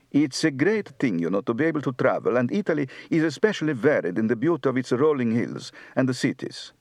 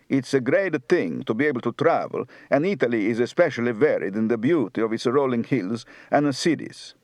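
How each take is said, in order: First: Light northern Italian accent, fast and even; Florentine Italian accent. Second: Light Neapolitan Sicilian Italian accent; southern Italian accent. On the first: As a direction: speak like a Florentine, a touch of Tuscan Italian. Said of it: "Northern, Florentine". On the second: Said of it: "Southern, Neapolitan, Sicilian". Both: Shown as a demonstration.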